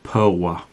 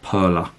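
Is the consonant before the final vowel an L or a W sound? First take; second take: W; L. First: The consonant before the final vowel sounds like W. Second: The consonant before the final vowel sounds like L. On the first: The speaker calls it right. "That's pronounced Perla. The L with the little line through it is a W sound" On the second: The speaker calls it wrong. "Not Perla, as everyone calls it over here"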